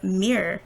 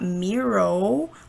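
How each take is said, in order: First: The last vowel is a weak schwa sound. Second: The last vowel is a full 'o' sound. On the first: The speaker calls it right. "there's a schwa sound here as well" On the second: The speaker calls it wrong. "it's not Miro, like an O"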